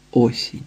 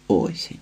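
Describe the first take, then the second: First: Said in the usual way. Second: Осінь whispered low and soft; whispered echo. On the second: A narrator's reading. Оповідач тихо повторює, пошепки. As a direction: let осінь fade into a breath. Repeated word, second take.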